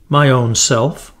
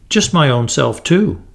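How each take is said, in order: First: Slow, light fairy voice; a tiny sweet fairy speaking; lightly voiced fairy girl; shrill sweet little voice. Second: A touch of caution, mild; understated cautious reply. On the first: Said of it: "she said in a shrill but sweet little voice". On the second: Acted. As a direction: answer warily, little boy. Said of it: "he answered cautiously".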